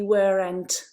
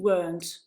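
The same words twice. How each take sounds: First: The word is said with two syllables. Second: The word is said with one syllable. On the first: The speaker calls it wrong. "Please don't say weren't" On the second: The speaker calls it right. "use uh, this pronunciation"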